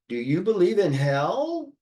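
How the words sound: The pitch rises quickly from low to high on hell. It is a genuine question. "with an inflection rising rapidly from, from low to high pitch"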